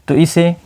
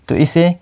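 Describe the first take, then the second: Both takes have the same delivery.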